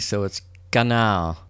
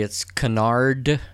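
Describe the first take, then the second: First: "canal" said slowly with the final D dropped; French-style pronunciation. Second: "canard" said slowly with the final D sounded; spelled-out pronunciation. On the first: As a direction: say "canard" as "canal", the D left silent. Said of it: "you don't pronounce the D". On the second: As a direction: sound out "canard" letter by letter, D included. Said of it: "if you do it phonetically". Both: Shown as a demonstration.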